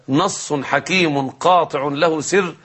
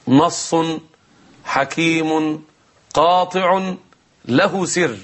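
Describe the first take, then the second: First: نص حكيم قاطع له سر run together as one measured phrase; joined-up recital. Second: نص، حكيم، قاطع، له سر with a long pause after each word; word-by-word suspense. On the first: Host repeating the mnemonic of the opening letters, one connected phrase. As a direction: recite نص حكيم قاطع له سر whole, without pauses between words. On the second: Host teasing viewers with the surprising phrase before the break, dramatic pauses. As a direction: deliver نص حكيم قاطع له سر one weighty word at a time. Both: Real, not acted.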